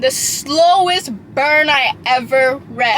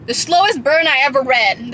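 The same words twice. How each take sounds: First: Slowly drawn out. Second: Said in the usual way. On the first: Shown as a demonstration. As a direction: stretch every word of The slowest burn I ever read slowly. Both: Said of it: "people said it was slow burn".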